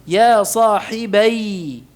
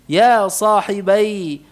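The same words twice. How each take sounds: The two takes are said the same way.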